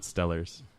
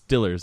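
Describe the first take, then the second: First: The first vowel sounds like 'stell'. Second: The first vowel sounds like 'still'. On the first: The speaker calls it wrong. "not Stellars" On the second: The speaker calls it right. "It's Stillers, actually"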